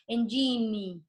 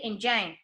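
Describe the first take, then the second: First: A vowel sound is heard after the final n. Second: The word ends on n with no vowel. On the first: The speaker calls it wrong. "You don't say engine" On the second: The speaker calls it right. "you say engine, and it's a silent final E"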